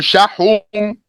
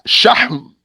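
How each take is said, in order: First: A u vowel is heard between h and m. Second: No vowel is heard between h and m. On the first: The speaker calls it wrong. "or shahum" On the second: The speaker calls it right. "It's shahm"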